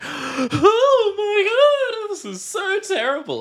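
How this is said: It is said in an exaggerated, theatrical way.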